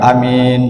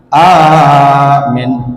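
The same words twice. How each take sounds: First: Only the second vowel is drawn out long. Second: Only the first vowel is drawn out long. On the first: It means honest. "Ianya panjang" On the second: It means make safe. "alifnya dipanjangkan"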